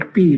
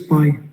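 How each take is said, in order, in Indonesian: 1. Nama hurufnya diucapkan seperti 'pee'. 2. Nama hurufnya diucapkan seperti 'pie'. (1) "Kalau ini bahasa Indonesia ini yang huruf merah ya, P bacanya" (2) "Kalau bahasa Inggris"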